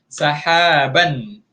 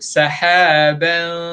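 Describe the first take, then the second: First: The n is fully and clearly pronounced. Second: The n is hidden and softened, not fully pronounced. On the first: The speaker calls it wrong. "itu bunyi bunyi yang asal dia" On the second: The speaker calls it right. "bila di ikhfa jangan sebut nun tepat pada makhraj"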